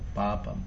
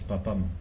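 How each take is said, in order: First: The a vowels are held long. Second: The a vowels are cut short. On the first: The speaker calls it right. "las A's largas son largas" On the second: The speaker calls it wrong. "no es papam"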